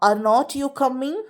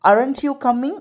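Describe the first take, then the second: First: 'Are not' is said as two separate words. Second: 'Are not' is joined into one contracted word. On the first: The speaker calls it wrong. "இந்த மாதிரி பேசுறதுக்கு கொஞ்சம் கஷ்டமாக இருக்கும்" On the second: The speaker calls it right. "அது ரெண்டையும் ஒன்றா சேர்த்து"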